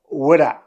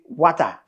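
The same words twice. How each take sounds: First: It is said in an American accent. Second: It is said in a Nigerian accent.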